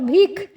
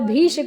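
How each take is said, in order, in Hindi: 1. यह शब्द 'kh' ध्वनि पर समाप्त होता है। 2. यह शब्द 'sh' ध्वनि पर समाप्त होता है। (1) "श को ख उच्चारित किया जाता है" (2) "लिखा तो स्पष्ट रूप से श ही है"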